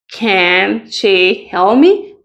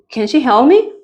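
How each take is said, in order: First: "Can she help me?" drawn out slowly with a rise on "me"; slow model question. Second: Said in the usual way. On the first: Shown as a demonstration. Teacher modelling a question slowly for students. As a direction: ask it slowly, rising on "me". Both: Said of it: "cómo sería una oración en pregunta".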